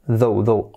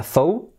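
First: "though" with a voiced th, as in this; "though" starting with the buzzing th of the; correct pronunciation. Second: "though" said with the th of thin, not voiced; "though" with a hissed unvoiced th, like thought; wrong pronunciation. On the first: Teacher modelling the right way, "though" with voiced th. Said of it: "sobre todo la pronunciación". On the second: Teacher showing students the mistake, "though" with unvoiced th. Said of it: "que no sea though". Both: Shown as a demonstration.

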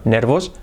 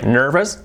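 First: Nervos said Spanish-style, no r-colouring; mispronounced. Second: Nervous with an r-coloured er, nə˞vəs; correct English. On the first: Teacher shows the wrong way to say nervous. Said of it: "nervos", no". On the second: Teacher shows the right way to say nervous. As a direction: say nervous with the American r. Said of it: "Cambia, "nervous", no". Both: Shown as a demonstration.

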